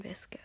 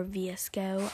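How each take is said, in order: First: Visco, said as a word, VIS-koh; VSCO as one word. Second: V S C O, said letter by letter; VSCO spelled out. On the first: Vlogger giving the name she finds funner, visco as a word. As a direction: say visco as two syllables, not letters. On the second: Vlogger offering another way to say it, V S C O letter by letter. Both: Shown as a demonstration. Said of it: "There's multiple ways to say it".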